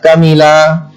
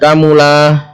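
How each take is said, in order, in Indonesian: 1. Huruf m diikuti vokal i. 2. Huruf m diikuti vokal u. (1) "bisa kamila" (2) "bisa kamula"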